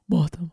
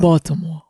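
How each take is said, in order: First: Said in the usual way. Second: Put-on Baltimore accent. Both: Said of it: "y'all accent a little".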